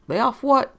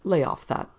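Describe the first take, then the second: First: Sharp, rising indignant question. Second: Said in the usual way. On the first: Acted. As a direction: throw it back at him, affronted. Rigotti bristling at accusation.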